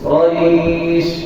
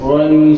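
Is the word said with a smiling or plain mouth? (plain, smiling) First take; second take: smiling; plain. First: The r sound is said with a smile. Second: The r sound is said without a smile. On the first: The speaker calls it right. "র উচ্চারণ করতে হবে হাসি দিয়ে" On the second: The speaker calls it wrong. "আমি তো এরকম বলি না"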